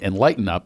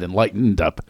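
First: The first word ends without an -ed sound. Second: The first word ends with an -ed sound. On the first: The present-tense form, as in the guest's tweet. The speaker calls it wrong. "our guest today tweeted she's on" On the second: The past-tense form: already enlightened. The speaker calls it right. "with an ED because it's past tense"

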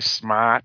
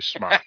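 First: It is said in a Boston accent. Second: It is said in a plain, non-Boston accent. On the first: "he's from Boston. So when he does say smart, he really does say smart" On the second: "He doesn't say smart"

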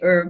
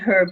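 First: It is said the American way. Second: It is said the listeners' non-American way.

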